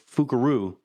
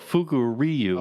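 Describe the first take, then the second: First: The last syllable has a plain 'ru' sound. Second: The last syllable has a clear 'ryu' sound. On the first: The speaker calls it wrong. "when you pronounce it in English, it just sounds like" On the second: The speaker calls it right. "Fu- well"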